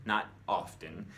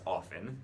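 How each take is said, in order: First: "often" said OFF-en, no T; silent t. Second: "often" said OFF-ten, T heard; t pronounced. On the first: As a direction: drop the T in "often". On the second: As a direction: keep the T in "often". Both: Shown as a demonstration. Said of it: "the T is completely silent".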